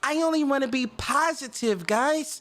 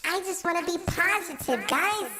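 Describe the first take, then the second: First: It is said in his normal voice. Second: It is said in a put-on voice.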